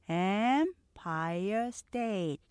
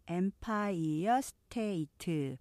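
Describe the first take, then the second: First: Three syllables with stress on the first. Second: Many evenly weighted syllables with added vowels. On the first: The speaker calls it right. "다 합쳐서 삼음절이죠. Empire State 기억하시고요" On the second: The speaker calls it wrong. "Empire State 이렇게 거의 발음절로 표기가 되지만"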